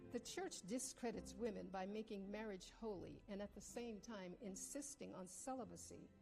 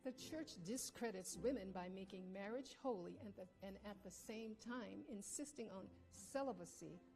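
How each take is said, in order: First: It is read at normal speed. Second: It is read slowly.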